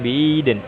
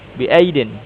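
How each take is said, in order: First: The glottal stop becomes a y-glide. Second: The glottal stop is clearly pronounced. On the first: This is the lightened reading of the hamzah. "Mereka bisa membaca yang bi'idin" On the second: This is the full reading of the hamzah. "kita kan membaca bi ai, bi aidin"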